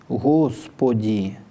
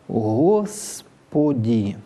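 First: The s is said with rounded, protruded lips. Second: The s is said with unrounded lips. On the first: "когда на «с» тоже губы вперед" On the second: "А может быть и не огубленным, тогда зазвучит так"

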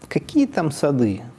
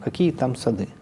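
First: It is said with an emphatic, clipped rise. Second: It is said with a neutral falling end. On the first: "А ИК-7 говорит" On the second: "Вот конечная синтагма – какие там сады"

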